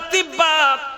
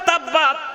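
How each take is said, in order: First: The first vowel is a close 'i' sound. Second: The first vowel is an open 'a' sound. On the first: The speaker calls it wrong. "ছাত্র বলে তিব্বাত" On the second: The speaker calls it right. "বাবা জবর করে পড়ো, ওখানে ওখানে তাব্বাত আছে"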